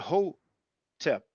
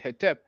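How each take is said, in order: First: The first vowel is an o sound. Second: The first vowel is an e sound. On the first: "That's the reason why we pronounce the O sound" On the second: "some people pronounce it Hetep"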